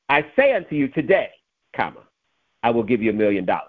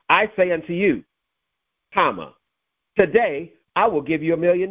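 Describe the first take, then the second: First: The break comes after the word today. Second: The break comes before the word today. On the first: The promise was made today for a future time. "at some point in the future, I will give you $1 million" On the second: The money arrives today. "That means it's coming today"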